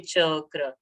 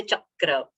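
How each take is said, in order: First: Chakra said as open cho-kra; "chakra" with a rounded first vowel and single k; no pressure. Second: Chakra said as chak-kra; "chakra" with an extra k sound; with pressure. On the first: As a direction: leave the first syllable of chakra open, no extra k. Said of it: "We don't say chakra". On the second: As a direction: press the first syllable shut on a doubled k. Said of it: "Cha is getting that pressure". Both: Shown as a demonstration.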